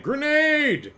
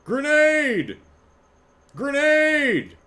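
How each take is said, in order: First: High shouted "Grenade!" again; grenade warning yell. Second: High shouted "Grenade!" imitation; grenade warning yell. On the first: Retold or imitated. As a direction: bark it like a game clip. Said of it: "Every time someone throws a grenade". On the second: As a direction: yell it like a game soldier. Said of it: "one sound clip for".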